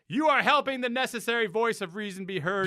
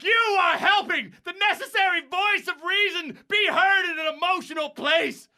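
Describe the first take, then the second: First: It is read at a moderate, restrained loudness. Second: It is shouted loudly with strong energy. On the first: The speaker calls it wrong. "You can shout better than that" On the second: The speaker calls it right. "Shout it, baby. Give the reading it deserves"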